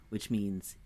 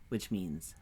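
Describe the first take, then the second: Both takes have the same delivery.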